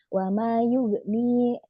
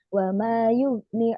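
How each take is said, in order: First: The final vowel of yughni is held long. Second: The final vowel of yughni is cut short. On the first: The speaker calls it right. "seharusnya itu ada matobi'i" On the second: The speaker calls it wrong. "dibaca pendek"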